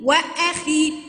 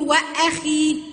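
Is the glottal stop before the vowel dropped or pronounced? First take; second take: pronounced; pronounced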